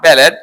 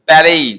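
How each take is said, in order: First: The final t sound is pronounced. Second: The final t sound is silent. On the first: The speaker calls it wrong. "Not ব্যালেট" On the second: The speaker calls it right. "আর টি silent থাকবে"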